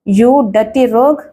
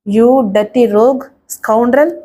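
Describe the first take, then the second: First: Slow, drawn-out "You dirty rogue!"; a lightly acted furious shout; mild mock yell. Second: Slow, drawn-out scolding insult; cursing him word by word, slowly; mild scolding. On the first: Hero shouting at the villain, a mild drawn-out yell. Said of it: "గొంతు చించుకుని అరిచాడు Rajesh". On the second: Acted. Woman scolding her attacker, slow and drawn-out. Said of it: "ఇష్టం వచ్చినట్లు తిట్టసాగింది".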